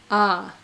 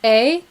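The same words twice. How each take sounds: First: Ah as a separate, open vowel sound. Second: A as a long "ay", rising; letter-name A. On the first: Streamer explaining alphabet sounds to viewers, open Ah. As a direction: sound out Ah like a letter in a lesson. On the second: Streamer explaining alphabet sounds to viewers, letter-name A. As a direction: say A as the alphabet letter, rhyming with "day". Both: Shown as a demonstration. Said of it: "you learn the letter shapes of".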